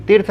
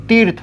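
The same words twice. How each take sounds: First: तीर्थ with a quick short i, like "tirth". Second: तीर्थ with a held "tee" vowel; long ī. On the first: Teacher showing students the misspelling, short-i तीर्थ. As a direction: keep the vowel of तीर्थ brief. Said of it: "तीर्थ नहीं". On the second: Teacher correcting it for students, long-ī तीर्थ. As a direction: stretch the ī in तीर्थ. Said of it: "बड़ा ई लगेगा". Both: Shown as a demonstration.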